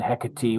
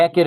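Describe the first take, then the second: First: Hecate as HEK-uh-tee, three syllables; Greek-style pronunciation. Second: Hecate as HEK-it, two syllables; British Shakespearean pronunciation. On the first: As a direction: sound the final e of Hecate as "tee". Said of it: "Hecate would be more Greek". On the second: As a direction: say Hecate with a silent final e. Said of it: "is more like a British". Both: Shown as a demonstration.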